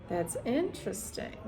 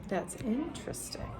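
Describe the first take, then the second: Both takes have the same delivery.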